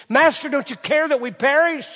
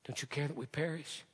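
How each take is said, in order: First: Loud, high desperate cry; panicked disciples. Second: Softer, pleading repeat; hushed echo. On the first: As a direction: cry out in fear of the storm. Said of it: "what the disciples said". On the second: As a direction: say it quietly, plaintive. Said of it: "You can almost hear him". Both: Retold or imitated.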